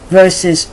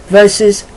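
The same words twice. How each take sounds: Both takes have the same delivery.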